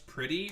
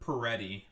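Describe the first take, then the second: First: The name is said the plain English way. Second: The name is said the Italian way.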